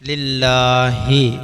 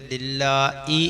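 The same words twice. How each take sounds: First: An h sound comes before the final vowel. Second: A glottal catch comes before the final vowel. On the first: The speaker calls it right. "ഹാഇന് കസർ കൊടുത്ത് പറയണം" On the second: The speaker calls it wrong. "ഹംസക്ക് കസർ കൊടുത്ത്"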